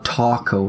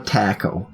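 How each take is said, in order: First: The word is said without a British pronunciation. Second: The word is said with a British pronunciation. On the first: The speaker calls it right. "It's called a" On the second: The speaker calls it wrong. "that's your Britishism coming through"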